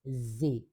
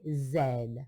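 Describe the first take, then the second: First: The letter is said the American way. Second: The letter is said the non-American way. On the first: The speaker calls it right. "we say Z" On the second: The speaker calls it wrong. "in American English, we don't say Z"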